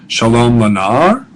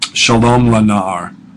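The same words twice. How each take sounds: First: It is said with the tune of a question. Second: It is said with the tune of a statement. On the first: It asks whether the boy is well. "you'd really say it like this" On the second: Peace to the boy. "peace to the boy"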